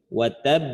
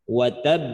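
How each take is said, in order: The two takes are said the same way.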